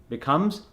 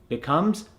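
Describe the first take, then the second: Both takes have the same delivery.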